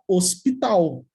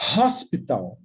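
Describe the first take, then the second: First: The word starts with a silent h. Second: The word starts with a breathy h sound. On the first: This is the Portuguese pronunciation. "No português, a gente fala hospital. É surdo" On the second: This is the English pronunciation. "Mas em inglês eu falo hospital. E é som de consoante"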